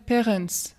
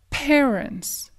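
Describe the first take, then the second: First: The stress is not on the first syllable. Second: The stress is on the first syllable. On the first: The speaker calls it wrong. "un francophone, s'il parle, il va dire parents" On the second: The speaker calls it right. "insiste sur la première syllabe"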